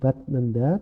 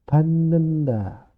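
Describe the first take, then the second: First: A t sound comes before the n. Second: Only an n sound is heard there. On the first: This follows the written spelling. The speaker calls it wrong. "Tulisannya batnenda" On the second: This is how it is actually read. The speaker calls it right. "tapi membacanya menjadi banenda"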